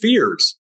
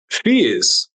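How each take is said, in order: First: It is said in an American accent. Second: It is said in a non-American accent.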